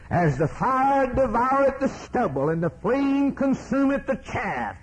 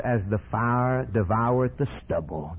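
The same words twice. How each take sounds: First: High, sustained pulpit cry; fiery preaching. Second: Said in the usual way. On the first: Real, not acted. Preacher repeats the burning stubble verse, full-force preaching. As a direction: ring the verse out high over the congregation.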